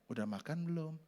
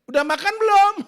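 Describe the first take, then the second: First: It is spoken softly in a gentle tone. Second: It is spoken sharply in a harsh tone. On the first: It sounds caring and pleasant. The speaker calls it right. "Coba ngomong lembut. ... Asik kan?" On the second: It sounds like picking a fight. The speaker calls it wrong. "Itu ngajak berantem"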